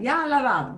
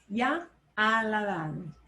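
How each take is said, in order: First: The words ya and ha run together quickly. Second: The words ya and ha are said separately.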